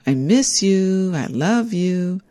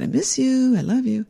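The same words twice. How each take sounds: First: Sing-song. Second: Much higher sing-song I miss you. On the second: Her ex-husband in hospital speaking sing-song. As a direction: lilt it up like he used to. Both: Retold or imitated. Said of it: "just in a sing-song voice".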